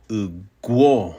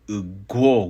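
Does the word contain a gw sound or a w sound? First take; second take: gw; gw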